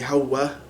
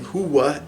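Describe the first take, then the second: First: It is said with the Egyptian Arabic vowel. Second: It is said with the Standard Arabic vowel. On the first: "they might say hawa" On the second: "Instead of saying huwa"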